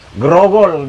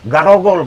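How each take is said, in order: First: It is pronounced the standard way, with an e. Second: It is pronounced the Batak way, with an a.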